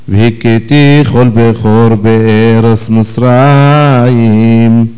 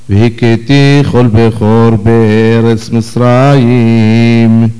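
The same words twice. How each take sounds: The two takes are said the same way.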